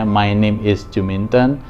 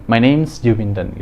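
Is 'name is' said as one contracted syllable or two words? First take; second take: two words; contracted. First: Name and is are said as two separate words. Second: Name and is are contracted into one syllable. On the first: It is the usual form in writing or indirect introductions. "tidak langsung atau melalui tulisan" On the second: It is the usual form in face-to-face speech. "kebanyakan orang akan mengucapkan ini ketika diucapkan langsung"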